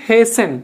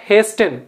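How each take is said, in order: First: HASTEN said as HAY-sen; silent T. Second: HASTEN said as HAYS-ten; wrongly sounded T. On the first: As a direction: leave the T out of HASTEN. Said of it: "టీ పలకదండి". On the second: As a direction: pronounce the T in HASTEN. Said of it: "it is not hasten". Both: Shown as a demonstration.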